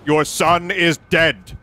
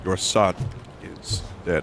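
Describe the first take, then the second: First: It is said in a loud, full voice. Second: It is said in a lowered, quiet voice.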